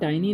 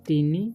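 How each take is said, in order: First: The first vowel sounds like 'eye'. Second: The first vowel is a short 'ih' sound. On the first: The speaker calls it wrong. "इसे टाइनी नहीं पढ़ना है" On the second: The speaker calls it right. "टिन्नी पढ़ेंगे हम"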